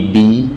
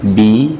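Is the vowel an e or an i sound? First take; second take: i; i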